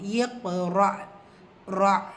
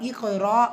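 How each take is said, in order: First: The qaf bounces and a final glottal stop sounds. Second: The word is said quickly without the final stop. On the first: The speaker calls it right. "அதுக்கும் சுக்கூன் கொடுத்துருக்காங்கிறப்போ அதை நம்ம உபயோகப்படுத்தணும்" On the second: The speaker calls it wrong. "அப்படின்னு சொல்லி கடந்து போயிடக்கூடாது"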